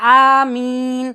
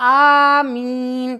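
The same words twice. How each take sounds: First: The opening vowel is held briefly. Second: The opening vowel is drawn out longer. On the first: "এক আলিফ টান" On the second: "তিন আলিফ টান"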